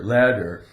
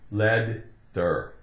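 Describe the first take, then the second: First: The middle consonant is one quick D sound. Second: The middle consonant is split into two sounds. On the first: The speaker calls it right. "the T sounds like a D, one D" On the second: The speaker calls it wrong. "It's not lead-der"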